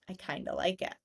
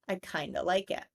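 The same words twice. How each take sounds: The two takes are said the same way.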